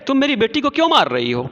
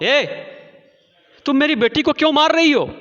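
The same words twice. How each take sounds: First: A lighter retake of the scolding, fast; milder angry mother. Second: High, fast, loud scolding; angry mother. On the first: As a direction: repeat the question to the neighbour, less heat. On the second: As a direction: confront the neighbour who hit your girl. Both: Acted. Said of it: "मलासा की माँ ने कहा".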